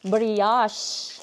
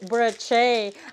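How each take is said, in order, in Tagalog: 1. Ang unang pantig ay binibigkas na 'bree'. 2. Ang unang pantig ay binibigkas na 'bro'. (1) "Brioche. Hindi broche" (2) "Hindi broche"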